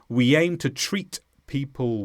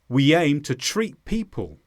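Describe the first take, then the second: First: The final T of treat is clearly pronounced. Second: The final T of treat is dropped. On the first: "I did not say" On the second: "I didn't pronounce the T at the end of treat"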